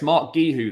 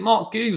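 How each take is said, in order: First: The surname has an audible i sound. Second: The surname sounds like one syllable, goo. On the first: "it's Mark Gihu then" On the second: "There's silent I"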